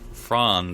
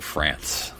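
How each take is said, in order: First: The name is said with a German-style vowel. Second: The name is said with an anglicized vowel. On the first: This is how the name should be said. The speaker calls it right. "it's Franz, I believe is how you would say it" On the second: This is how the show's characters say it. The speaker calls it wrong. "they keep saying France"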